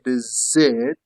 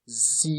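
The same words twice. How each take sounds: First: The letter is said zed, British style. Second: The letter is said zee, American style.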